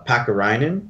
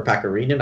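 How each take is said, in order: First: Pakarinen said off, without the Finnish "ree"; first, mistaken guess at saying Pakarinen; mispronounced Pakarinen. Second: Pakarinen with a Finnish "ree" in the third syllable; second try, saying Pakarinen as PAH-kah-ree-nen; corrected Pakarinen. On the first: Host unsure of a waived player's name, mispronouncing Pakarinen. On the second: Host correcting himself on a waived player's name, Pakarinen pronounced properly. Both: Real, not acted. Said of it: "Second time you got it right".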